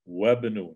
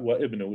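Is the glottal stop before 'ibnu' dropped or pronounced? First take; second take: dropped; pronounced. First: The glottal stop is dropped, linking into 'bnu'. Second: The glottal stop is pronounced before 'ibnu'. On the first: The speaker calls it right. "drop the Hamza and I go straight to the ba" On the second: The speaker calls it wrong. "not wa ibnu"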